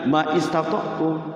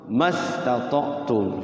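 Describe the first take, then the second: First: A separate 'i' vowel is sounded after 'ma'. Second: 'Ma' runs straight into 'stata'tum' without the vowel. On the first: The speaker calls it wrong. "Jangan ma istata'tum" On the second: The speaker calls it right.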